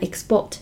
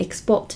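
First: The stress is on the second syllable. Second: The stress is on the second syllable.

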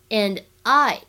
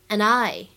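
First: The two words are said separately. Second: The two words are linked into one.

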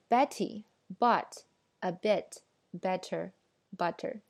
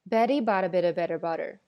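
First: The words are said separately and clearly. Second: The words are run together quickly. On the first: "其实这句话拆开来非常容易啊" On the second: "那我再来说一遍"

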